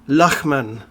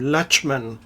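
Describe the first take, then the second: First: The name is said with a German pronunciation. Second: The name is said with an anglicized pronunciation. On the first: The speaker calls it right. "which is a German name, right? So it's sort of more pronounced Lachman" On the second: The speaker calls it wrong. "each time they pronounce his name Lachman"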